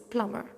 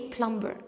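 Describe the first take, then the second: First: No b sound is pronounced after the m. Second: A b sound is pronounced after the m. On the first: The speaker calls it right. "the B is silent" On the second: The speaker calls it wrong. "I don't say plumber"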